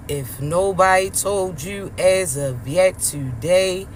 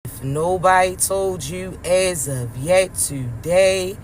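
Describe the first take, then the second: No difference in how they are said.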